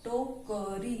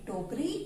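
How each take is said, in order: First: टोकरी slowly split into टो-क-री; syllable by syllable. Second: Said in the usual way. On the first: Shown as a demonstration. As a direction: spell out टोकरी by ear, each syllable held. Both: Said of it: "इनको आप बोल बोल कर लिखना".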